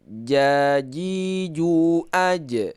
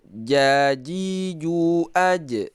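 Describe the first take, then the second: No difference in how they are said.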